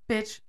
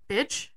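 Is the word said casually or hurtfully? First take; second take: casually; hurtfully. First: It is said in a casual, light way. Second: It is said in a hurtful, aggressive way.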